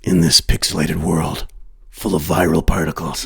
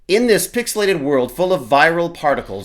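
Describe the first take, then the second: First: It is read in a gruff Batman-like voice. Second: It is read in an ordinary speaking voice.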